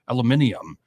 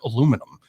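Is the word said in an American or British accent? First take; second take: British; American. First: It is said in a British accent. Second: It is said in an American accent.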